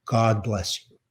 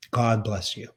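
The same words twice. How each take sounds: First: A soft, quiet blessing from mother; tender blessing. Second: Softer still, the blessing echoed; tender blessing repeated. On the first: Mother blessing her only son, quiet and tender. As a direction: hush it gently, full of feeling. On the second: Mother repeating her blessing to her son, quieter and tender. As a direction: let the repeat fade quietly. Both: Retold or imitated. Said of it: "And the three words were".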